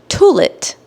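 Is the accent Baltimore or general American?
Baltimore. It is said in a Baltimore accent. "I've even heard someone say toilet"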